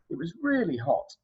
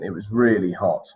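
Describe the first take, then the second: First: The voice rises at the end. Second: The voice falls at the end.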